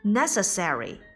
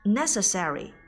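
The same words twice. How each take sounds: The two takes are said the same way.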